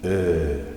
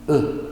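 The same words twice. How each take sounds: First: The vowel is held long. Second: The vowel is cut short. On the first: "a long sounding ö" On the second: "the short sounding ö"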